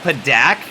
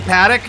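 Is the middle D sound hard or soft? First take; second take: hard; soft. First: The middle D is hard and clearly enunciated. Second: The middle D is soft and lightly said. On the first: "like with the enunciation on that hard D there" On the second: "if I read it for the first time and I'd never heard it, I might say Paddock"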